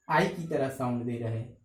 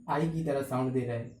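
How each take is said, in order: Both takes have the same delivery.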